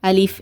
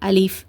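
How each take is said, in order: No difference in how they are said.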